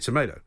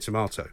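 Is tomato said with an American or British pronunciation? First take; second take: American; British. First: It is said with an American pronunciation. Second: It is said with a British pronunciation. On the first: The speaker calls it right. "you say tomato" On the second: The speaker calls it wrong. "in America as well, you don't say tomato"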